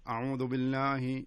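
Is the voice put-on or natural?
put-on. It is said in a put-on reciting voice.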